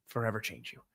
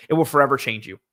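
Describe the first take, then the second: First: Much softer trailing repeat of Forever change you; quiet echo. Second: Said in the usual way. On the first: Real, not acted. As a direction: murmur Forever change you back to yourself.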